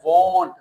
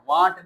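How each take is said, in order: First: The vowel is said with rounded lips. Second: The vowel is open with unrounded lips. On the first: The speaker calls it right. "मुंह को गोल करना है" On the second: The speaker calls it wrong. "वांट नहीं"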